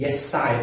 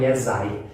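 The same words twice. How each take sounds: First: "Yes, I" with a true voiceless S linking into "I". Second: "Yes, I" with the S of "Yes" voiced as Z, like "yezai"; Brazilian Z mistake. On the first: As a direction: keep the S of "Yes" from turning into Z. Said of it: "Não tem som de Z, o yes, o yes é S mesmo". ("Yes, I" com som de S, sem Z) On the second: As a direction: run "Yes, I" together with a buzzing Z. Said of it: "o brasileiro fala". ("Yes, I" com som de Z, como brasileiro fala) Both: Shown as a demonstration.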